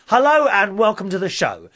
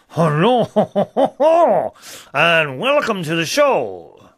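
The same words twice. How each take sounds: First: It is spoken in a plain English accent. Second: It is spoken in a put-on French accent. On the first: "First of all, in English" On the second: "And now in French"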